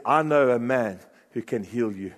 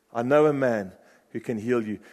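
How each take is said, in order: First: "I" leaned on at the start, "I know a man who can heal you" with the weight on "I"; stress on I. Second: "know" leaned on, "I know a man who can heal you" with the weight on "know"; stress on know. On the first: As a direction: put the weight on "I", the rest falling away. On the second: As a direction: put the weight on "know", calm and sure. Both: Acted. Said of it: "and she said".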